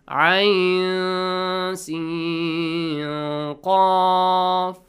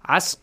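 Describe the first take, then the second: First: Each letter is said separately by its name. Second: The letters are blended into one short word. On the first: The speaker calls it right. "read these letters separately with their names" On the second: The speaker calls it wrong. "You say, Asq, no"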